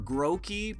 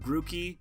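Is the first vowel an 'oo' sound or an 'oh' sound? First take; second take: oh; oo. First: The first vowel is an 'oh' sound. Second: The first vowel is an 'oo' sound.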